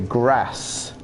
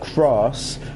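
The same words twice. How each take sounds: First: It is said with an American accent. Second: It is said with a British accent.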